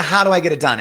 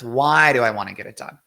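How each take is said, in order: First: The question driven loud and high from "how"; stress on "how". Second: "why" punched loudly as the key word; stress on "why". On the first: Coach dismissing the how question, loud stress on "how". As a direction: set up "how" loudly as the rejected question. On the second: Coach giving the real question, loud stress on "why". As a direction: hit "why" hard against the rejected how. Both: Shown as a demonstration.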